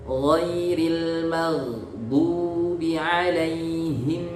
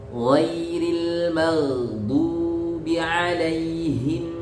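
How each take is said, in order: No difference in how they are said.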